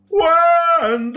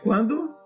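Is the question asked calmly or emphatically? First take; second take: emphatically; calmly. First: The question is asked with strong emphasis. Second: The question is asked in a plain manner.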